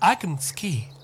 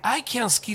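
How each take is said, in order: First: The word can is weak and unstressed. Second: The word can is said strongly.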